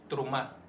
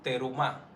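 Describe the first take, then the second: First: The first two consonants run together without a vowel. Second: A full vowel is heard after the first consonant. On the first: The speaker calls it right. "es así" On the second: The speaker calls it wrong. "Pero no es así que suena esa parasha"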